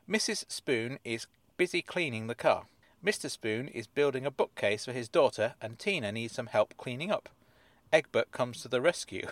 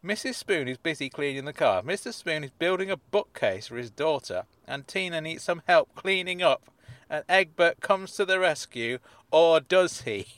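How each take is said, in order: First: Said in the usual way. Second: Hammed-up dramatic read, rising to the end; cheesy cliffhanger narration; mock suspense. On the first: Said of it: "rereads the synopsis". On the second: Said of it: "attempted to introduce some kind of element of suspense".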